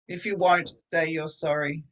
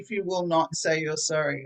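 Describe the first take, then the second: First: The verb is contracted to one syllable. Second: The verb is said as two full words. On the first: "If you won't" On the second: "It just sounds stronger"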